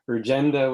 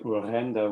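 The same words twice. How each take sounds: First: The name is said with English sounds. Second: The name is said with Dutch sounds. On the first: "just give it an English pronunciation when you're speaking English" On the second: "something like Urgenda when you're speaking Dutch"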